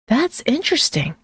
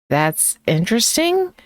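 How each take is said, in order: First: It is said with genuine, curious interest. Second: It is said slowly and skeptically. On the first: It is a compliment. "said with genuine curiosity" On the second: It expresses doubt. "said slowly with a raised eyebrow"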